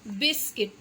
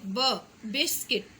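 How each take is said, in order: First: Said in the usual way. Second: Slow, with ब split off and punched before biscuit; stress on ब. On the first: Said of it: "बुलंद आवाज़ में बताना है biscuit". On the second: Shown as a demonstration. Teacher showing children the first sound ब, slowly. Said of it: "पहला हुर्फ है उस पे ज़ोर देना है".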